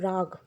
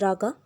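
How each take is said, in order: First: The word ends on a consonant sound. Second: The word ends with an extra vowel sound. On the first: The speaker calls it right. "Actually, it is called rag" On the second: The speaker calls it wrong. "I know it is written raga"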